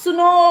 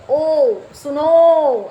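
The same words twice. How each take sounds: First: सुनो said short and loud; quick call. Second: ओ सुनो stretched very slow and loud, like calling someone far off; drawn-out call. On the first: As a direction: snap out सुनो once. (सुनो छोटा और ज़ोर से) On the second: (ओ सुनो को लंबा खींचकर पुकारना) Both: Shown as a demonstration. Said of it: "ऐसे".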